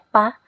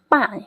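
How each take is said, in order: First: The syllable is said with no tone. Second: The syllable is said with tone four. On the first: "Kalau misalnya nggak ada nada ya pa" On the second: "Kalau dikasih nada empat"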